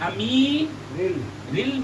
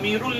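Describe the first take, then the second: First: The vowel before the final L is i. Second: The vowel before the final L is u. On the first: The speaker calls it right. "अमीरिल अमीरिल मुमिनीन" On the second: The speaker calls it wrong. "अमीरुल नहीं है"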